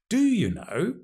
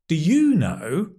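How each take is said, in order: First: The stress falls on the word do. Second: The stress falls on the word you. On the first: The asker doubts that the listener really knows. "Emphasizing the do, strong form" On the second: The asker does not know and turns the question to the listener. "That means I don't know. And what about you?"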